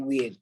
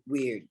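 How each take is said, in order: First: The R sound at the end is dropped. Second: The R sound at the end is pronounced. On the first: The speaker calls it right. "I say weird. Drop the R" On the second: The speaker calls it wrong. "I don't say weird"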